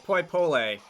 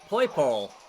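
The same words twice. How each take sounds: First: The final vowel is pronounced. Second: The final vowel is silent.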